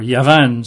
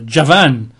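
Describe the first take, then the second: First: The word begins with a Y sound. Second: The word begins with a J sound. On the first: "they probably pronounce it Yavan, Y-A-V-A-N" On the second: "So that's J-A-V-A-N"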